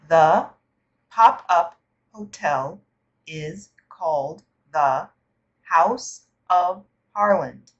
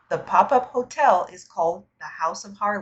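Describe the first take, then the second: First: The sentence is read slowly. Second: The sentence is read at normal speed. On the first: "I will read each section of the article slowly" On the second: "and then again at normal speed"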